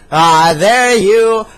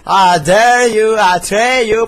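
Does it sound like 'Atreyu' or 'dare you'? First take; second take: dare you; Atreyu. First: It sounds like the two English words 'dare you'. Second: It sounds like the single name 'Atreyu'. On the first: The speaker calls it right. "En realidad dice Dare You" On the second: The speaker calls it wrong. "su pronunciación es tan mala que dice Atreyu"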